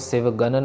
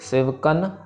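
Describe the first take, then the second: First: The middle consonant is a voiced g sound. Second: The middle consonant is a voiceless k sound. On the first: The speaker calls it wrong. "इसको सिवगन नहीं कहना" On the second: The speaker calls it right. "सिवकन कक्के के साथ है"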